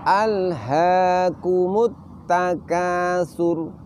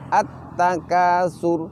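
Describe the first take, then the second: First: The final r sounds thick and rounded. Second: The final r sounds thin and light. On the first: The speaker calls it right. "ro kita baca dengan suara menebal" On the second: The speaker calls it wrong. "Tidak boleh uh, ro-nya itu kita baca demikian"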